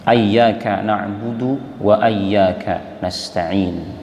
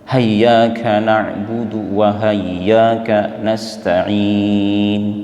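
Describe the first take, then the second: First: The first word begins with an a vowel. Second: The first word begins with a strong h sound. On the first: "difatahkan. Fatah hamzah dan tasydid ya" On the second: "digantikan fathahnya hamzah dengan ha tebal"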